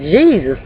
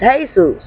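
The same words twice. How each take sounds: First: The name is pronounced the English way. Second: The name is pronounced the Spanish way. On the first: "but we pronounce it as Jesus" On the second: "they J E S U S is pronounced as Jesus"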